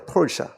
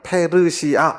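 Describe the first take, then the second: First: It is said with an American English pronunciation. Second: It is said with a careful Korean pronunciation. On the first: "미국 선교사들은 페르시아를 어떻게 발음하냐면 펄샤 이럽니다" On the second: "우리는 너무 정확하게 발음해요. 페르시아 이렇게 발음하는데"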